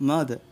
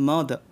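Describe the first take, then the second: The two takes are said the same way.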